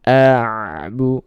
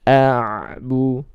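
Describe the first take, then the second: No difference in how they are said.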